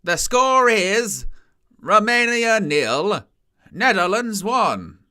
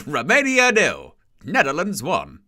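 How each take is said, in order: First: Very slow, higher, drawn-out announcer call; stadium announcer. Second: A laughing echo of the PA; stadium announcer. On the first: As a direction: stretch every word like a stadium PA. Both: Retold or imitated. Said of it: "stadium announcers are a bit much".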